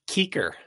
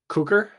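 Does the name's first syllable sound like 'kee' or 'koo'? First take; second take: kee; koo. First: The first syllable sounds like 'kee'. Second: The first syllable sounds like 'koo'. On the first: The speaker calls it right. "It is Keeker" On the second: The speaker calls it wrong. "No, that was not right"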